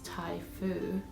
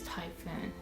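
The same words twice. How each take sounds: First: It is said with Japanese pronunciation. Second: It is said with English pronunciation.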